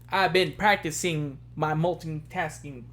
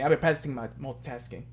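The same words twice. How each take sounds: First: The phrase is spoken slowly. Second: The phrase is spoken quickly. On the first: "Let me say it slowly" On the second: "I know I just kind of said it fast"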